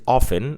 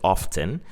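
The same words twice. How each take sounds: First: It is said in the general American-British way. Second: It is said in a regional British way. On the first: "in American English or even in British English, they pronounce it often" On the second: "in some British regions, they pronounce it often"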